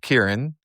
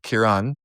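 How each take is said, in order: First: The name is said the American way. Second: The name is said the Irish way. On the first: "in America, it's Kieran" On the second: "But Kieran"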